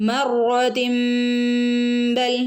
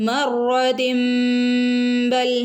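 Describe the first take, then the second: Both takes have the same delivery.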